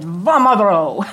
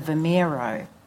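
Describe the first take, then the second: First: The vowel after V sounds like 'oh'. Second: The vowel after V sounds like 'ee'. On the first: The speaker calls it right. "No, no, he said, Vomero" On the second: The speaker calls it wrong. "I was pronouncing it as the Vimero"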